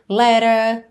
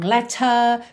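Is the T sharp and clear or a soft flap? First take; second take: soft flap; sharp. First: The T is a soft flap, American style. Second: The T is said clearly, British style.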